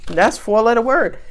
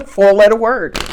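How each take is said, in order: First: Said in the usual way. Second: Said through a laugh; amused, laughing it out. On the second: Real, not acted. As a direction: laugh as the card repeats. Laughs at repeated card.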